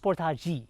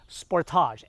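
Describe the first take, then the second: First: The name is said the Korean way. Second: The name is said the Philippine way.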